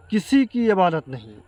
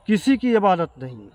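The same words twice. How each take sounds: The two takes are said the same way.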